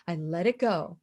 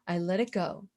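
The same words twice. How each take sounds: First: Said in the usual way. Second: Soft, low, almost whispered; soft release. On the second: Real, not acted. Speaker releasing anger from within, soft and low. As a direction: let it out quietly, lower. Repeats letting it go, softening.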